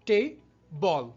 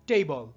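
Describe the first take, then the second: First: There is a break between the two syllables. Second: The two syllables run together without a break.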